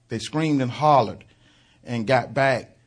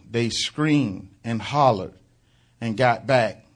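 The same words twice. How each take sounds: The two takes are said the same way.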